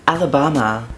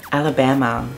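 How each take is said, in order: Both takes have the same delivery.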